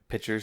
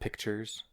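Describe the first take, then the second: First: The t sound in the middle is dropped. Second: The t sound in the middle is pronounced.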